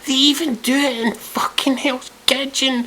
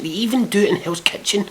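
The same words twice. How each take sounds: First: Very high, drawn-out disbelief; exasperated squeal. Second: High-pitched incredulous aside; incredulous rant. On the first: Repeating himself about reality shows, squealing in disbelief. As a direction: push it right up into a squeal of outrage. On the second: Ranting about reality shows, incredulous. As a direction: say it high, at ordinary volume. Ranting, first take of repeated line. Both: Real, not acted.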